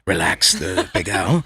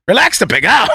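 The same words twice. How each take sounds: First: Very low, slow and soft; mock soothing chef. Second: Said in the usual way. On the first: Comic imitating a chef massaging rice, soothing hush. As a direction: coax the food as if massaging it. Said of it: "acting like he's massaging this thing".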